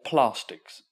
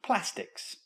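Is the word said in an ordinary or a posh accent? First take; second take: posh; ordinary. First: The word is said in a posh accent. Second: The word is said in an ordinary accent.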